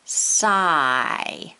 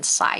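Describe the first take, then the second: First: "Sigh" stretched long, vowel drawn out; modeled word. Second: Said in the usual way. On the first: Shown as a demonstration. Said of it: "And say the word sigh". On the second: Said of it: "Let's try it with the first one".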